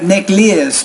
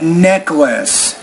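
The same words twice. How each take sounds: First: The first vowel sound is distorted. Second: The first vowel sound is standard. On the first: The speaker calls it wrong. "You want to say not necklace" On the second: The speaker calls it right. "but necklace"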